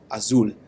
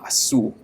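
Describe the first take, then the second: First: The final sound is a clear L. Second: The final sound is a W. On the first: "like Brasil in Spanish" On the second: "I had the tendency to pronounce those as W's"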